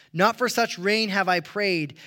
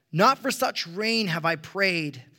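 Both takes have the same delivery.

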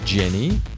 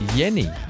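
First: The name starts with a J sound. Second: The name starts with a Y sound. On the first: "They don't name Jenny" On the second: "it's Jenny"

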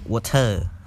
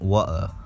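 First: It is said in a Cambodian accent, strong T. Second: It is said in a British accent without R. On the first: "They would pronounce the T way. There's more of that" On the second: "you would take away the R. It's like water"

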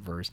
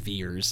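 First: The vowel sounds like the one in 'verse'. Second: The vowel sounds like the one in 'veer'. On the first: This is how ordinary viewers would say the name. "or as you and I want to pronounce it" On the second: This is how the aliens say the name. "they pronounce it as Veers"

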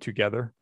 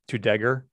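First: The word is pronounced in the standard adult way. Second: The word is pronounced in a childlike, nonstandard way. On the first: This is the usual adult pronunciation. The speaker calls it right. "instead of "together."" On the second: This is how a young child said it. The speaker calls it wrong. "my oldest would say "together""

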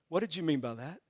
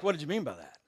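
First: The question sounds gentle and curious. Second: The question sounds sharp and accusing. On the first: The speaker genuinely wants to understand. The speaker calls it right. "I want to learn" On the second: The speaker is confronting the spouse. The speaker calls it wrong. "don't say like"

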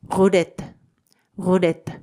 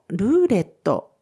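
First: It is said with French sounds. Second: It is said with Japanese katakana sounds.

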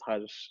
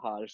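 First: It is said with the native Indian pronunciation. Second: It sounds like the English word harsh. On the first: This is the name's own pronunciation, meaning happiness. The speaker calls it right. "it's Harsh" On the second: This is how foreigners hear and say the name. The speaker calls it wrong. "For them, it's Harsh. ... It's not Harsh"

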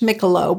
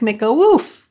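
First: It is read with English letter sounds. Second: It is said with Polish letter sounds. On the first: "It kind of looks like Mikkelow if you were looking at it in English" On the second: "we add little things to different letters and it makes it sound like Mikkowów"

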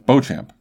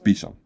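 First: The name is said as it is spelled. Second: The name is said like Bee-sham. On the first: The speaker calls it wrong. "I've always pronounced it as Beauchamp, because that's kind of what it looks like" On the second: The speaker calls it right. "but apparently it's Beesham"

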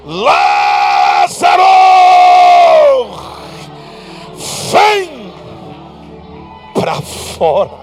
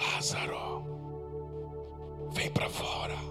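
First: It is shouted loudly. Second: It is said very quietly.

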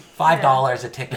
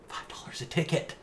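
First: It is said louder. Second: It is said at normal volume.

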